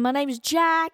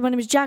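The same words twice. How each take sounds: First: It is said slowly. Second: It is said quickly.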